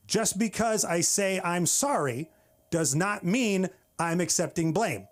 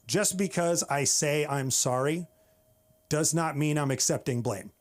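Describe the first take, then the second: First: Slower, higher, with SORRY and MEAN stressed; emphatic repeat. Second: Said in the usual way. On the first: Shown as a demonstration. Comic making the crowd get the rule, emphatic. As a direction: spell it out slowly, leaning on "sorry" and "mean". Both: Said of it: "Say it again".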